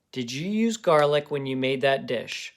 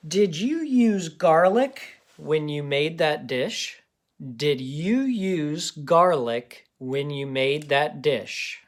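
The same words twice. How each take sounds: First: Said in the usual way. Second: Slow, clear dictation voice. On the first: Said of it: "pause it and try it". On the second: Shown as a demonstration. Teacher dictating a sentence slowly to kids. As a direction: read it slowly for children to write. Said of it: "Let's do the sentence".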